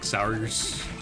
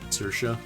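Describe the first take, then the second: First: The name is said in three spelled-out syllables. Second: The name is said in two syllables, 'seer-sha'. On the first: The speaker calls it wrong. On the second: The speaker calls it right.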